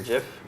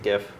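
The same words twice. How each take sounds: First: The word begins with a soft J sound. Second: The word begins with a hard G sound.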